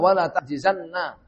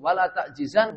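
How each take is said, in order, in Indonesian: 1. Kata itu diakhiri dengan n ganda diikuti a. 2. Kata itu diakhiri dengan bunyi n tunggal, tanpa harakat. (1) "Nunnya taukid ya, thaqilah" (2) "kalau mukhaffaf sukun"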